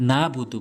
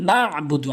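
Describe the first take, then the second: First: না বুদু with a plain open a, no ayn; wrong, ayn dropped. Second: না বুদু with ayn from mid-throat after না; correct, with ayn. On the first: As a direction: say না বুদু skipping the throat consonant. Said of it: "অনেকেই ভুল বলে". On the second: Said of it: "আইনটি হলকের মাঝখান থেকে". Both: Shown as a demonstration.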